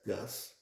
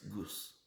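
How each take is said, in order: First: The word is said with an English-style pronunciation. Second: The word is said with a non-English pronunciation. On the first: The speaker calls it wrong. "if you are English speaker, you will pronounce it as Gus" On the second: The speaker calls it right. "but it is not Gus, it's Gus"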